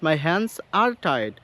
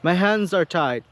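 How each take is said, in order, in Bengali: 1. Hands আর are আলাদা আলাদা শব্দ হিসেবে বলা হয়। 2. hands-এর 's' সরাসরি are-এর সাথে মিশে যায়। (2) "তারা স এবং আর এই সাউন্ডটাকে তারা একত্রিত করে ফেলে"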